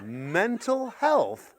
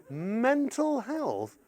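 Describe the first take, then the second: First: Slow, drawn-out baffled question; puzzled repeat. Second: Slow, softer, more disbelieving echo; incredulous repeat. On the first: Parent baffled by the kids' advice, slow puzzled question. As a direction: stretch it out, bewildered. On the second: Parent echoing the kids in slow disbelief. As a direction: drag it out, incredulous. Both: Retold or imitated. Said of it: "The kids are going".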